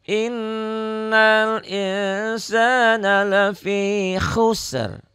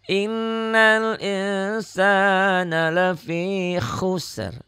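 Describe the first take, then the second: Both takes have the same delivery.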